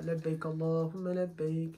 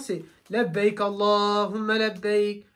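First: It is said quietly, in a low voice. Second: It is said loudly, in a raised voice. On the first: The speaker calls it wrong. "l'homme, il ne va pas faire comme ça" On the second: The speaker calls it right. "Mais normalement, c'est"

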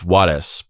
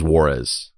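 First: The name is said with a Spanish pronunciation. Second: The name is said with an English pronunciation. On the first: The speaker calls it right. "if you were to pronounce it the correct way" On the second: The speaker calls it wrong.

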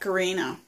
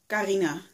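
First: The name has an English pronunciation. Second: The name has a non-English pronunciation. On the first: "But in English, I think you pronounce it like Karina" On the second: "I'm saying it weird, I think. Because I was called Karina"

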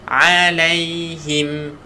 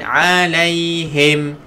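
First: The last syllable has a clear i vowel. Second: The last syllable has a vowel other than i. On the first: The speaker calls it right. "kalau bahasa Melayu dia pakai vokal I, huruf I" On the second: The speaker calls it wrong. "jangan alaihim"

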